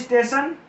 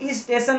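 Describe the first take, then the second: First: The word starts directly with the st cluster. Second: An extra i vowel comes before the st cluster.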